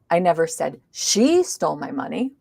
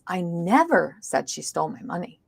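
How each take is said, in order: First: The stress is on the word I. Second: The stress is on the word never. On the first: Someone else may have said it. "maybe somebody else did" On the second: The speaker denies saying it at all. "Now we've stressed the word never"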